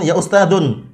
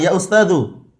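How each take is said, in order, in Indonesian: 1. Kata itu diakhiri bunyi n. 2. Kata itu tidak diakhiri bunyi n. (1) "Manggilnya jangan ya ustadun" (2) "tidak boleh ditanwin"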